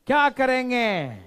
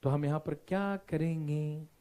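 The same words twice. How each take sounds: First: Loud, high, stretched-out demand; shouted question. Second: Said in the usual way. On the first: Real, not acted. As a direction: shout it to rouse the class. Repeats question to unresponsive class. (ज़ोर से चिल्लाकर सवाल)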